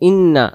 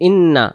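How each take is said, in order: Both takes have the same delivery.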